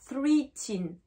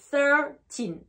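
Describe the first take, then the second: First: The word begins with the full sound 'three'. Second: The word begins with the shortened sound 'thir'. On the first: The speaker calls it wrong. "On ne dit pas three teen" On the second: The speaker calls it right. "C'est thirteen"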